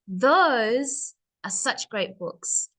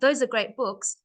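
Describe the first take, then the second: First: The words are pushed louder with breaks between. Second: It is said flatly, without extra push.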